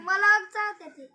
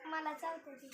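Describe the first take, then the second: First: Loud, slow, emphatic complaint; louder complaint. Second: Much softer, trailing repeat. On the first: Child tells mother the cat bites her, loud and slow. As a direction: insist loudly that it bites. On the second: Child repeats to mother that the cat bites, softly. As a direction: mumble it again under your breath. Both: Real, not acted.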